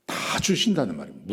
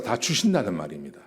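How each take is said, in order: First: Long, emphatic 다 to drive the point home; stress on 다. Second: Said in the usual way. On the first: Real, not acted. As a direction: stretch the word 다, then finish the phrase. Repeats point, stretching the first word.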